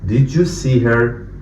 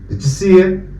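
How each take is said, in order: First: Each word is pronounced clearly and separately. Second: The words are linked and the sounds reduced.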